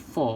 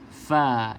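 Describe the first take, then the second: First: The fa is pronounced heavy and thick. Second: The fa is pronounced light and thin. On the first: The speaker calls it wrong. "kalau tebal bunyinya dah jadi fa" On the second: The speaker calls it right. "huruf fa tak tebal"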